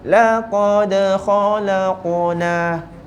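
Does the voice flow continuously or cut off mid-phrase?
continuous. The voice flows on smoothly without a stop. The speaker calls it right. "Kita nak bunyi sama"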